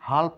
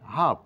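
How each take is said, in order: First: The L sound is pronounced. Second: The L sound is silent. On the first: The speaker calls it wrong. "হাল্প নয়" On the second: The speaker calls it right.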